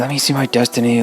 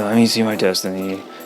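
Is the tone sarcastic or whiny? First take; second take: whiny; sarcastic. First: It sounds whiny and impatient. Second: It sounds mocking and sarcastic. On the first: "he sounds like a almost like a spoiled brat" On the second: "he sounds kind of sarcastic on the last one"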